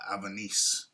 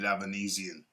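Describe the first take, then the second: First: The surname is cut short, final syllables dropped. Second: The surname is said in full, all syllables. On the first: The speaker calls it wrong. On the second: The speaker calls it right.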